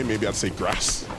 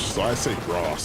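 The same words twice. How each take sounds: First: Grass said with a short a, like gas; Northern English grass. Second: Grass said with a long ah, grahss; Southern British grass. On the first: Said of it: "from up north". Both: Shown as a demonstration.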